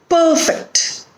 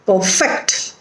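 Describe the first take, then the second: First: Perfect as PER-fect, high then falling; stress on first syllable. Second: Perfect as per-FECT; weak per, strong FECT in perfect; stress on second syllable. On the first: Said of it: "the stress is on the first syllable". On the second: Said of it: "it is on the second syllable". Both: Shown as a demonstration.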